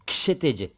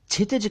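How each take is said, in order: First: The opening 'ksh' sound is said clearly. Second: The opening 'ksh' sound is simplified. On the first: The speaker calls it right. "जबकि यह है" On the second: The speaker calls it wrong. "कह देते हैं कुछ लोग"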